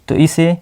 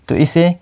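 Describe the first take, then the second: Both takes have the same delivery.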